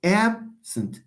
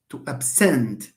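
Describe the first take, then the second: First: ABsent, stress on the first syllable; "Absent" as a noun, first syllable stressed. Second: "absent" stressed on SENT; verb stress. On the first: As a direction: say "Absent" with weight on AB. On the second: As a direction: land "absent" on the second syllable. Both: Shown as a demonstration. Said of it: "stress falls on the second syllable".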